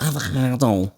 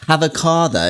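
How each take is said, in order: First: Throaty Scouse K in avocado; hammed-up Scouse avocado; Scouse accent. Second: Said in the usual way. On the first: Shown as a demonstration. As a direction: say avocado like a thick Liverpudlian. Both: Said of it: "Is that a good accent?".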